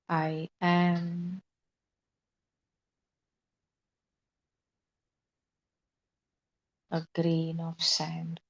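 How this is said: It is said with a gap.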